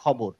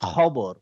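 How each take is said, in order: First: The opening kh is soft, with no throat friction. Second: The opening kh is a harsh rasp in the throat. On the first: "আমরা বাংলাতে normally বলি" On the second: "যখন অ্যারাবিকে বলবো তখন বলবো"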